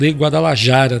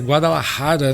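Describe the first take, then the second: First: The J is a soft Brazilian zh sound. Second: The J is a harsh R-like throat sound. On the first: This is how Brazilians say it. The speaker calls it wrong. "a gente fala Guadalajara" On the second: This is how it is said in Spanish. The speaker calls it right. "Mas é Guadalajara"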